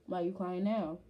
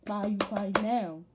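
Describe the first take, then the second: First: Said in the usual way. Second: Louder, insistent retold question; raised-voice mock demand; emphatic repeat. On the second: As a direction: push the question out hard, quoting yourself. Same question repeated more forcefully.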